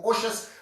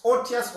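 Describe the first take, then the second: First: "osious" said as OH-shus; pronounced with SH. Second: "otious" said as OH-tee-us; pronounced with a T. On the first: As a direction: turn the middle of "osious" into SH. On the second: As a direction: keep a clear T in the middle of "otious". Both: Shown as a demonstration. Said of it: "pronunciation that you may have".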